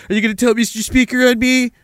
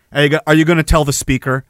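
First: Higher, sing-song schoolyard taunt; mocking taunt. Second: Said in the usual way. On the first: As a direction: tease like a bully. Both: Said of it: "taunt them in public".

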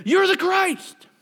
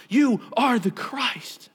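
First: High, loud, drawn-out proclamation; exclaimed declaration. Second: YOU raised high, every word slow and weighted; emphatic declaration. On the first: Acted. Peter answers Jesus before the disciples, exclaimed declaration. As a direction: cry it out as an eager disciple. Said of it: "He said". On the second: Retold or imitated. Preacher restates a statement of faith and trust, emphatic declaration. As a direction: slowly proclaim YOU ARE the CHRIST, falling at the end.

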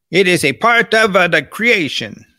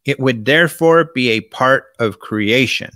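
First: Imitating Italian speaker. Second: Said in the usual way. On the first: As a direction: mimic how the Italian priest phrased it, lightly. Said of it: "That's how he said it. That's how the Italians talk". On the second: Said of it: "That's how he said it".

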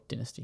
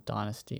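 First: "Dynasty" said DIN-uh-stee; "Dynasty" with a short i up front; short-i pronunciation. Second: "Dynasty" said DIE-nuh-stee; "Dynasty" with an eye vowel up front; long-i pronunciation. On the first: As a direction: open "Dynasty" with the sound of din. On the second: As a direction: open "Dynasty" with the sound of die. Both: Shown as a demonstration. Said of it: "whatever you say it".

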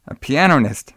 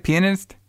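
First: "pianist" said as "piano-nist"; mispronounced word. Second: "Pianist" tried as "PEE-uh-nist", higher and rising; questioned pronunciation. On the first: Podcaster stumbling on Peter's dream job, mispronouncing "pianist" as "piano-nist". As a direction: add an extra syllable, "pee-AN-o-nist" for "pianist". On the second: Podcaster asking co-host how to say it, "Pianist" as unsure "PEE-uh-nist". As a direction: check "Pianist" as a question, three syllables. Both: Real, not acted. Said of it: "How do you say it?".

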